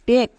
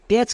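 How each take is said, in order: First: The word ends with a k sound. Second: The word ends with a ch sound. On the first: The speaker calls it right. "এর উচ্চারণ কি দাঁড়াবে?" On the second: The speaker calls it wrong. "টেচ কিন্তু ভুল উচ্চারণ"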